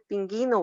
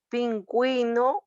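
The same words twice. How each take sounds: First: The u after the g is silent. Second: The u after the g is clearly pronounced. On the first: The speaker calls it wrong. "no va a ser pingüino" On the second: The speaker calls it right. "oígase muy bien"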